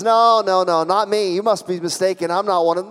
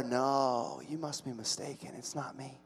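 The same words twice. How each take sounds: First: Slightly raised, hurried protest; acted protest, mildly heated; insistent denial. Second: Very soft, shrinking denial; acted near-whisper of denial; hushed denial. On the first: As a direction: brush off the accusation firmly. Acting Peter's first denial. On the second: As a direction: barely voice it, backing away from the accusation. Acting Peter's subdued denial.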